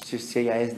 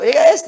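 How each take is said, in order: First: Low and soft, unsure at first; hesitant quiet confirmation. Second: Higher and louder, right away; instant sure answer. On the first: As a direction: murmur it as if still checking. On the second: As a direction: blurt it out with certainty. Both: Shown as a demonstration. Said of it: "inmediatamente yo digo".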